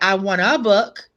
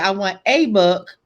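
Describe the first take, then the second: First: The article is a short reduced 'uh' sound. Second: The article is a full 'ay' letter sound. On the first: The speaker calls it right. "Uh is the word. And so you could say" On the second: The speaker calls it wrong. "you were wrong because A is how you spell uh"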